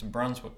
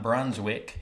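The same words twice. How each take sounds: First: Brunswick clipped short, weak second syllable; local pronunciation. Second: Brunswick with a clearly sounded "wick"; full pronunciation. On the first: Correcting a friend on Brunswick, local run-together pronunciation. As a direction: say Brunswick quickly, swallowing the ending. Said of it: "it's Brunswick". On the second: Showing a friend the unwanted way, careful Brunswick. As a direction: say Brunswick as two full syllables. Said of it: "it's not Brunswick". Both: Shown as a demonstration.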